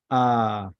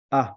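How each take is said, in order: First: A held long as "aaah"; a sustained "ah" for A; long vowel. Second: A cut short as "ah"; a quick, short "ah" for A; short vowel. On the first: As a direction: draw A out into a long open "ah". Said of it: "Gadol means long". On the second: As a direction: say A as a brief open "ah". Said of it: "A, the short one". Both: Shown as a demonstration.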